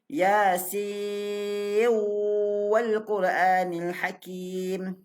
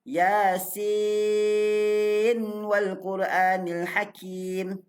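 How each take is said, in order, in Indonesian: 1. Bunyi n menyatu secara sengau ke dalam w. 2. Bunyi n diucapkan dengan jelas sebelum w. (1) "boleh sambung siwal, tapi kena dengunglah" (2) "Itu kaedah bacaan pertama"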